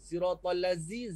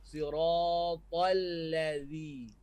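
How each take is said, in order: First: The last consonant is a buzzing z sound. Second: The last consonant is a soft th sound. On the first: The speaker calls it wrong. "Kalau Z dia kata, Zai" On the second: The speaker calls it right. "Zi lidah keluar"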